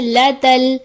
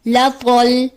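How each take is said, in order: First: The t is pronounced light and thin. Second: The t is pronounced heavy and thick. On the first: The speaker calls it right. "दुरुस्त अदायगी है" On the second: The speaker calls it wrong. "ता की जगह तो की अदायगी आ जाती है"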